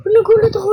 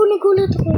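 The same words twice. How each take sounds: First: Louder, higher startled cry; real startled exclamation. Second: Settling down after the scare; calmer startled. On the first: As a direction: jolt out the words as if caught off guard. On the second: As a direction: repeat it, less jumpy. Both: Real, not acted.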